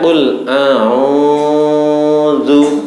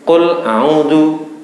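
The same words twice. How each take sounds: First: The long vowel is stretched very long. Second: The long vowel is cut short. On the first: "itu sudah melebihi satu huruf atau dua harokat" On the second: "Jangan dibaca biasa tanpa panjang"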